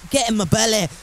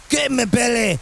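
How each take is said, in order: First: Put-on lighter first go at a Scottish accent. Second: Hammed-up Scottish shout; Scottish accent. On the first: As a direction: read it out with a mild Scottish accent. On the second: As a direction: throw yourself into a broad Scottish accent. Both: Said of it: "tap into my Scottish accent".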